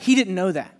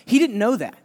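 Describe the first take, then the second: First: He hit first, didn't left light; He didn't know that, weight on He; stress on He. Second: Didn't punched, the rest falling away; He didn't know that, with didn't hit hardest; stress on didn't. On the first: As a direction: lean on He, not on didn't. Repeating with new weight. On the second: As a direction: lean hard on didn't. Insisting on what Jonah knew. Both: Acted.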